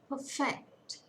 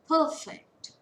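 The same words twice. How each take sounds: First: The stress is on the second syllable. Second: The stress is on the first syllable. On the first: It is used as a verb. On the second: It is used as a noun or adjective.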